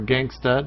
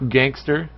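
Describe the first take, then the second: First: The word ends with an 'uh' sound. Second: The word ends with an 'er' sound. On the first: "Or gangsta, depending on where you're from" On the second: "Straight up gangster"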